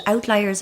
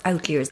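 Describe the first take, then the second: First: "outliers" with a long i in the middle; pronounced out-LIE-ers. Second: "outliers" with an ee sound, like "leers"; pronounced out-leers. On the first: Guest checks a word with host, "outliers" said out-LIE-ers. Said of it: "Is it outliers or outliers?". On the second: Guest checks a word with host, "outliers" said out-leers. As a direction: say "outliers" with "lee" in the middle. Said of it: "if that's how you pronounce it". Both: Shown as a demonstration.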